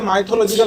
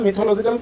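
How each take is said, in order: First: The first vowel sounds like 'eye'. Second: The first vowel sounds like 'ih'. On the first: The speaker calls it wrong. "অনেকে মাইথোলজিক্যাল বলে" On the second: The speaker calls it right. "Proper উচ্চারণ"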